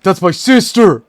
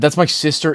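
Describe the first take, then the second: First: Loud, high outraged exclamation; hammed-up shocked shout; imitating the clip. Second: Said in the usual way. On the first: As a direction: yell it like the viral video guy. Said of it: "He says it like that".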